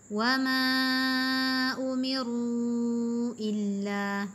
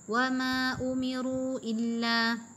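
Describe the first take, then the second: First: The long vowel is held for four counts. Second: The long vowel is held for two counts. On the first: "Sekarang yang empat harakat" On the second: "itu dua harakat"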